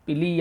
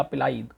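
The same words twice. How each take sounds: First: "पिली" ending in a long ee; pronunciation "पिली". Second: "पिलाई" with a laa-ee ending; pronunciation "पिलाई". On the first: Teacher showing students one pronunciation of pili, "पिली" said pi-lee. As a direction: say "पिली" as pi-lee, two syllables. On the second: Teacher showing students another pronunciation of pili, "पिलाई" said pi-laa-ee. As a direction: say "पिलाई" as pi-laa-ee, three syllables. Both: Shown as a demonstration. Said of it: "अलग-अलग प्रकार से उसको उच्चारित".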